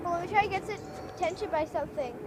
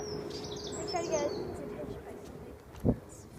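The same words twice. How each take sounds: First: Said in the usual way. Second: Breathy hushed whisper. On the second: Real, not acted. To Mom, a hushed whisper near the cat. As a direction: hush it so the cat stays. Repeats it hushed after "stop.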